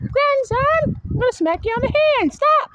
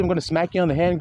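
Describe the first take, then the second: First: Much higher, fast, playful scolding voice; a mock-stern elder snapping at a child. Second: Said in the usual way. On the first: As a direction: scold the grandson in a put-on voice, quick and high. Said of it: "see how I said I'm gonna smack you on the hand". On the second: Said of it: "see how I said".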